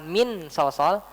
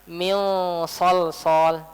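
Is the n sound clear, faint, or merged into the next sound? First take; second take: clear; faint. First: The n sound is pronounced fully and clearly. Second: The n sound is faint and partly hidden. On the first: The speaker calls it wrong. "Kita nggak baca dengan jelas, bukan" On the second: The speaker calls it right. "Samar-samar nunnya"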